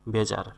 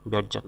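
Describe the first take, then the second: First: Teacher models বেজার slowly and carefully; correct pronunciation. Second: বেজার said wrongly, with an added t sound before the j; teacher shows the mistake: বেজার with a t before the j; wrong pronunciation demo. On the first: Teacher shows students the right বেজার, said with care. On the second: Teacher warns students about the wrong বেজার, showing the t-sound error. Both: Shown as a demonstration. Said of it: "বেজার না".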